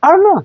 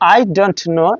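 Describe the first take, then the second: First: The t is dropped and the words run together. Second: Every word is said fully, including the t.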